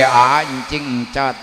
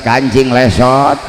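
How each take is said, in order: First: Put-on encing encot said as babyish lisp for kancing lesot; slow, childish encing encot. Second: Kancing lesot said clearly, slow; plain. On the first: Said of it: "Nyebut kancing lesot ge". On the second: Shown as a demonstration. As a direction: correct kancing lesot, drawn out. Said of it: "Naon encing encot".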